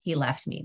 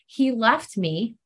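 First: He left me dropped low and soft, falling flat; low pointed repeat. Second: Slow, each word pressed out, rising on He; slow emphatic statement. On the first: Repeating to the group what her boyfriend did, low and soft. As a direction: repeat it softer and lower to let it sink in. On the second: Telling the meeting about her boyfriend, slow and emphatic. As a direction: lay out He left me slowly, stressing it. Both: Real, not acted. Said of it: "Did you hear that?".

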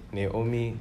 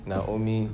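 First: Naomi said as nay-OH-mee, first syllable like nay; one way to say Naomi. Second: Naomi said as now-OH-mee, first syllable like now; another way to say Naomi. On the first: Pastor showing his congregation how some people say the name, as nay-OH-mee. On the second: Pastor showing his congregation another way the name is said, as now-OH-mee. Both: Shown as a demonstration. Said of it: "Some people say Naomi".

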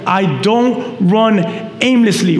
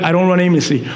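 First: "I don't run aimlessly" slowly, word by word; slow emphatic quote. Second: Said in the usual way. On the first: Shown as a demonstration. Repeats verse slowly for emphasis.

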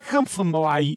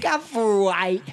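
First: "Come from away" garbled like a tape of backwards speech, pitched up; reversed-speech sound. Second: "Come From Away" mimicked as garbled backwards talk, pitched up; imitating reversed speech. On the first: Shown as a demonstration. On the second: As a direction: copy a mangled, high "Come From Away". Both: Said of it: "yours sounded like this".

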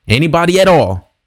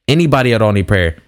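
First: Lifted, carrying call to the room, pitched up high; inviting anyone who needs prayer, called out high; calling out to a crowd. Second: Said in the usual way. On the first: Retold or imitated. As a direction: call it out across an auditorium. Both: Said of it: "I said it one more time".

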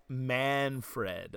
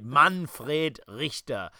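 First: "Manfred" drawn out the American way, "MAN-fred"; slow, American-sounding "Manfred"; English pronunciation. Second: "Manfred Richter" slow and very German, "MAHN-frayt RIKH-tah"; emphatic German-style "Manfred Richter"; German pronunciation. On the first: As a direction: say "Manfred" slowly with a flat English a. English take before German take. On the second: German take of father's name. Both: Shown as a demonstration.

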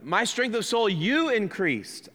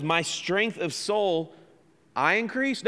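First: YOU punched high as the correction; stress on you. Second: I raised in a doubting question; stress on I. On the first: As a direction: lean hard on you, drawn out. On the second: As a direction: put the questioned weight on I. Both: Shown as a demonstration.

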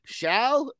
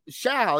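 First: Questioning. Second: Said in the usual way. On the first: Shown as a demonstration. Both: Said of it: "I don't know about this word here".

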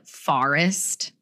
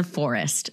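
First: Forest said slowly with the Jersey vowel. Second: Forest said lower, the way her husband says it; husband's forest. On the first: Shown as a demonstration. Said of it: "we say things like forest". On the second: Retold or imitated. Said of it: "my husband is like".

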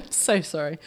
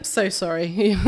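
First: Apologising through laughter; laughing. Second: Said in the usual way. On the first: Real, not acted. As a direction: laugh while you say sorry. Apologising again while laughing.

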